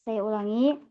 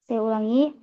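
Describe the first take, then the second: The two takes are said the same way.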